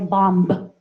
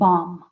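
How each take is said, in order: First: The word ends with an audible b sound. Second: The word ends on the m sound only. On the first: The speaker calls it wrong. "We don't pronounce the uh, B. We don't say bomb" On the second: The speaker calls it right. "just bomb"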